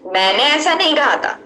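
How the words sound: The stress is on मैंने.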